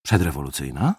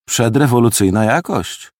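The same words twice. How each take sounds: First: Wary echo question. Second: Appreciative. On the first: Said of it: "Zmarszczył brwi milicjant". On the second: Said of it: "powiedziałem z uznaniem". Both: Acted.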